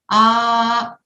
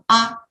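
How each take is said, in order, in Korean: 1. 모음을 두 배 길이로 발음해요. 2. 모음을 짧게 발음해요. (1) "장모음일 때는 아 하고 두 개의 길이로 발음을 한다" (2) "A 같은 경우는 아"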